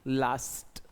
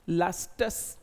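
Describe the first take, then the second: First: "लास्ट" ending cleanly on t, no extra s; correct pronunciation. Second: "लास्टस" with an extra s sound at the end, slowly; wrong pronunciation. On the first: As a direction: say "लास्ट" crisp, stopping at the t. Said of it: "आपका एक pronunciation इसका बनेगा लास्ट". (सही उच्चारण "लास्ट", बिना अतिरिक्त स के) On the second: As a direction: say "लास्टस" with a wrong added final s. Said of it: "कॉस्टस मत कर देना". (गलत उच्चारण "लास्टस", अंत में अतिरिक्त स) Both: Shown as a demonstration.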